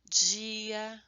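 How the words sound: The d before i is softened, Brazilian style. "A gente sonoriza a palavra"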